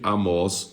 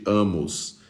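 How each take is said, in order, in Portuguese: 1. A tônica está na última sílaba. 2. A tônica está na primeira sílaba.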